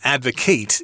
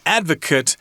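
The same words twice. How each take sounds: First: It is said with the verb's pronunciation. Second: It is said with the noun's pronunciation. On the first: It means to argue for a cause. "advocate is the verb" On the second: It names a person who supports a cause. "advocate is the noun"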